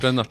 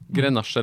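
First: The name is pronounced the Spanish way. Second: The name is pronounced the French way.

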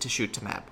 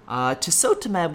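First: The second syllable begins with a sh sound. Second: The second syllable begins with a plain s sound.

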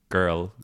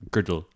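First: The word is said without a d sound. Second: A d sound is added before the l. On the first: "the D that people put between" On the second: "It's Dublin kind of slang"

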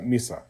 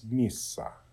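First: The S sound is short. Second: The S sound is held longer. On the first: The speaker calls it wrong. "It's not misa" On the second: The speaker calls it right. "Just kind of lengthen the S"

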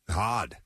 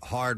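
First: The R sound is dropped, Boston style. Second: The R sound is clearly pronounced.

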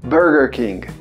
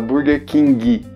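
First: King ends cleanly without an added vowel. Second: King ends with an added i vowel. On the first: The speaker calls it right. "porque você está querendo a pronúncia do inglês" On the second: The speaker calls it wrong. "O pessoal fala Burger King. Esse i no final a gente vai cortar"

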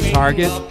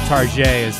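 First: It ends in a plain English hard t. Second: It ends in a French-sounding 'zhay'.

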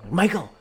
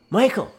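First: The name is called out in panic. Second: The same.

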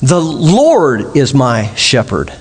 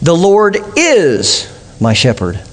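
First: The stress is on "Lord". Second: The stress is on "is".

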